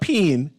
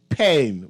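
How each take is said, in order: First: The vowel is not a long A. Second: The vowel is a long A. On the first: The speaker calls it wrong. "not pain" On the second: The speaker calls it right. "it's pain with a long A"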